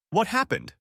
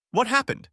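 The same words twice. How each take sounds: First: High, anxious demand; panicked question. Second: Higher and louder, pleading in panic; more panicked repeat. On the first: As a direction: rush it out in worry. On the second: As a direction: push harder, near frantic. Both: Acted. Panicked groom at Anne's door.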